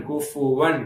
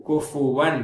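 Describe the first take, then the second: The two takes are said the same way.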